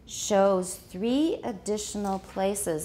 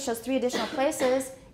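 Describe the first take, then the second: First: There is a short pause after 'shows'. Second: There is no pause after 'shows'. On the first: The speaker calls it right. "we need to put a little pause there to keep up the right rhythm" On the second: The speaker calls it wrong. "it's going to slip by too fast"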